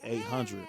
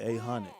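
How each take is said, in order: First: It is said with a general, non-local pronunciation. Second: It is said with a local Pontiac pronunciation. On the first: This is how outsiders say it. "We don't say eight hundred" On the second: This is how people from Pontiac say it. "I'm from Pontiac, man. We say eight hundred"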